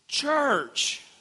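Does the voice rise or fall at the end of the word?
fall. The voice falls at the end, like an exclamation. It celebrates church with confidence.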